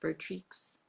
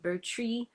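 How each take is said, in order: First: The final x is clearly pronounced. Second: The final x is left silent. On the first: "or do you pronounce the X?" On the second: "Is that how you say it"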